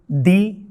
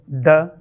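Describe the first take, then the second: First: The word is said with a full vowel. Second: The word is said with a reduced vowel. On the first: "the definite article" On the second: "or usually pronounced in natural speech"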